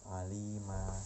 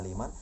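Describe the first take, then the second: First: The word ends with a long vowel. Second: The word ends with an n sound. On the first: The reading stops at this word. "Kalau dibaca waqaf dia berbunyi menjadi alima" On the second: The reading continues without stopping. "kalau dibaca wasol, dibaca terus mad dibaca aliman"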